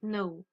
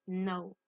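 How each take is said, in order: First: "know" with the k sounded before the n; K wrongly pronounced. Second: "no" starting straight on the n, no k; silent K. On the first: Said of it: "On ne dit pas know". (prononcer « know » à tort avec le K audible) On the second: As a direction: say "no" for know, with the k left silent. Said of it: "Le K est une lettre muette". (prononcer « no » sans aucun son K au début) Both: Shown as a demonstration.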